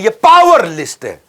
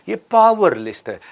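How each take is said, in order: First: The sentence is said very loudly. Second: The sentence is said more softly. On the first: "मैं ज्यादा जोर से बोल दिया" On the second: "थोड़ा धीरे बोल देता हूं"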